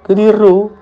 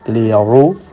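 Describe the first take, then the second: First: The r sound is light and thin. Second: The r sound is full and heavy.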